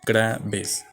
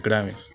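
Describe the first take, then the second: First: "Graves" broken in two, GRA - ves; split into syllables. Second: Said in the usual way. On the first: Shown as a demonstration. Teacher repeating the term for the class, split as GRA-ves.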